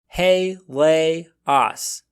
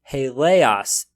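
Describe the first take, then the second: First: It is said slowly, syllable by syllable. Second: It is said faster as one smooth word. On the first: "reading each word very slowly, breaking it up into syllables" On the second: "Now I'll read a bit faster"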